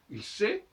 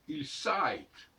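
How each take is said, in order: First: The vowel is a single steady sound. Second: The vowel glides from a toward i.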